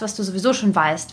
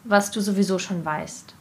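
First: The phrase is spoken quickly. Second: The phrase is spoken slowly. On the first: The speaker calls it wrong. "Das war jetzt für mich zu schnell" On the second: The speaker calls it right. "Also langsamer?"

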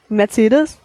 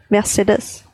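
First: The name is said with a German pronunciation. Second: The name is said with a Spanish pronunciation. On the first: "so wie wir" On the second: "nicht so, wie wir das aussprechen, aber ich kann das nicht richtig aussprechen"

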